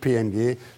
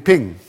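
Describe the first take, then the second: First: It is spelled out as three separate letters. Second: It is said as a single word, ping. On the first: The speaker is not an expert. The speaker calls it wrong. "sagen Sie nicht PNG" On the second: The speaker is an expert. The speaker calls it right. "sondern sagen Sie Ping"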